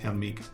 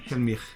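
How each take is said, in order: First: The name ends with a hard g sound. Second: The name ends with a soft ch sound. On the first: The speaker calls it wrong. "Sorry, I said Hel- Helmig. It's terrible" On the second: The speaker calls it right. "Mich. Yeah, Helmich"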